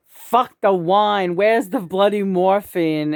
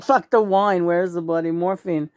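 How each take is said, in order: First: Slow, drawn-out mock outburst; frantic poem line. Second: Said in the usual way. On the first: Quoting John's frantic poem to the camera, slow and emphatic. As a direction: read it out big and slow, like huge scrawled letters. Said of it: "in, like, big letters".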